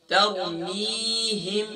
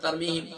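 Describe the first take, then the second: First: तरमीहिम with a clear, breathy ह. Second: तरमीहिम with the ह slurred, not clear; wrong take of तरमीहिम with a weak ह; unclear ha. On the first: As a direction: say तरमीहिम pronouncing the ह distinctly. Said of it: "हा को clear". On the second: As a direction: say तरमीहिम swallowing the ह. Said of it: "हम तो हा को clear ही नहीं करते". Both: Shown as a demonstration.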